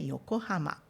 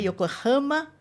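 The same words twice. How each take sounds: First: The syllable ha is not stressed. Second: The syllable ha is stressed. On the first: The speaker calls it right. "mas é Yokohama" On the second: The speaker calls it wrong. "para você não acentuar o H. Não é Yokohama"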